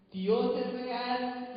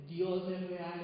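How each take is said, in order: First: "Dios es real" drawn out slowly and sung. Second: Said in the usual way. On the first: Real, not acted. Preacher singing "Dios es real" to the congregation, slow.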